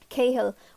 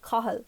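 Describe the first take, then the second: First: It is said with an English-style pronunciation. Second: It is said with a native Irish pronunciation. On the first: The speaker calls it wrong. "which which is clearly using an English pronunciation" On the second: The speaker calls it right. "maybe someone I would know would say Cahill, and which is quite different"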